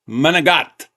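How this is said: The word is said in a regional pronunciation.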